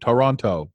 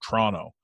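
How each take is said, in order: First: Every syllable is carefully pronounced. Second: The middle is dropped, sounding like Trono. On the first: This is how outsiders say it. "the commentators are all American, right? So all you would hear is Toronto" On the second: This is how locals say it. "Like it's just T-R-O-N-O"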